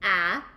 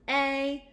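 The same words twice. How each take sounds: First: The vowel is short, as in cat. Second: The vowel says its own letter name. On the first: "Short vowel sounds are" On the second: "long vowel sounds are"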